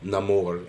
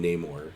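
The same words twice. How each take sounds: First: The name is said with a Spanish pronunciation. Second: The name is said with a Wakandan pronunciation. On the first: This is how Spanish speakers say the name. "people with like a, a, a Spanish accent would call him Namor" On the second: This is how people from Wakanda say the name. "people like from Wakanda called him Namor"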